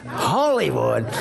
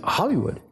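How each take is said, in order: First: Slow, stretched-out wondering repeat; slowly savouring the strange idea; drawn-out. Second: Sharp, higher incredulous question; mock shock at the answer; a hint of disbelief, voice jumping up; surprised. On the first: Retold or imitated. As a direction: let the word hang, slowly. Father mulls son's answer. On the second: Father stunned at son's answer.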